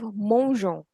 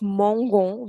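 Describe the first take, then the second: First: The g is a soft zh sound. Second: The g is a hard g sound. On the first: The speaker calls it right. "So that the pronunciation of G remains je" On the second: The speaker calls it wrong. "Instead of mangon"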